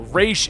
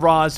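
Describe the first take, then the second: First: The name ends with an 'sh' sound. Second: The name ends with a 'z' sound. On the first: "two different ways to pronounce it" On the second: "two different ways to pronounce it"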